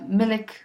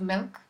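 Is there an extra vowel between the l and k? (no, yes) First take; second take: yes; no. First: An extra vowel splits the l and k. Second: The l and k join with no vowel. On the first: The speaker calls it wrong. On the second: The speaker calls it right.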